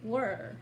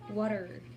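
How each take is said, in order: First: It is said in a Northern British accent. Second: The T is softened to a D-like sound. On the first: "in the North part area in Brits, they say as" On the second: "They usually switch the T sounds into D"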